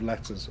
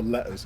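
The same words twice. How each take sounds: First: The double t is pronounced as a clear t. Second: The double t is replaced by a glottal stop.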